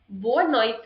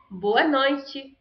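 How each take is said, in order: First: "boa noite" ending on a bare t; European accent. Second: "boa noite" with noite as "noy-chee"; Brazilian accent. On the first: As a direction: say noite as "noyt", no final vowel. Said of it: "which accent is European". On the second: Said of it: "which one is Brazilian". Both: Shown as a demonstration.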